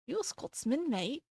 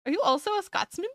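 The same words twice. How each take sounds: First: Soft, badly faked Scottish accent; attempted Scottish accent. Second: Said in the usual way. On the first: Shown as a demonstration. Streamer asking a viewer if they're a Scot, attempted Scottish accent. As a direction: try a Scottish accent, quietly and clumsily. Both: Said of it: "Not that I can do a Scottish accent".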